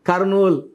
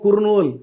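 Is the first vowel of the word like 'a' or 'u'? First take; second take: a; u. First: The first vowel sounds like 'a'. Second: The first vowel sounds like 'u'. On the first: This is how people say the name. "పలికేది" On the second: This is how the name is written. "రాసేదేమో కుర్నూల్"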